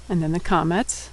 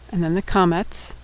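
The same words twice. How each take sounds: The two takes are said the same way.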